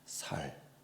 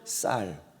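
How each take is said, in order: First: The word starts with a soft, plain s sound. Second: The word starts with a tense, hard s sound. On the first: The speaker calls it wrong. "살 하면 죽인다니까요" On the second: The speaker calls it right.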